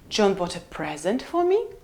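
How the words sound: The pitch falls then rises on present. "Or we can have full rise"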